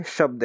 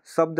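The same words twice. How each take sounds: First: शब्द said with a clear sh sound, as shabd; correct pronunciation. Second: शब्द said with a plain s sound, as sabd; wrong pronunciation. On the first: Teacher shows students the right way, शब्द as shabd. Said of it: "ये क्या है?". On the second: Teacher shows students the wrong way, शब्द as sabd. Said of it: "शब्द बोलूँ इसको तो गलत हो जाएगा". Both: Shown as a demonstration.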